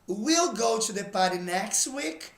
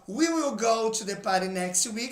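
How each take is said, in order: First: "We will" is shortened into one syllable. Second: "We will" is said as two full words.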